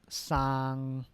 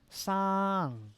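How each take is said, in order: First: The pitch stays level without falling. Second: The pitch falls across the syllable.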